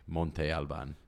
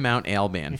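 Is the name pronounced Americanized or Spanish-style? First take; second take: Spanish-style; Americanized. First: The first word sounds like Spanish 'monte'. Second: The first word sounds like English 'mount'. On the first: The name is said as intended. The speaker calls it right. "if I was saying it, like trying to do it correctly" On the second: A local mispronounces the name. The speaker calls it wrong. "some really Rochester person calling it Mount Albán"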